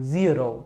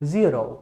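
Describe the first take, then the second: No difference in how they are said.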